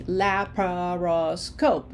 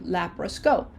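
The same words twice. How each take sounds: First: "Laparoscope" slowly, la-pa-ro-scope in separate beats; slow, evenly stretched "Laparoscope" for learners; broken into syllables. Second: Said in the usual way. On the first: Shown as a demonstration. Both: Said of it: "If we break it up in syllables".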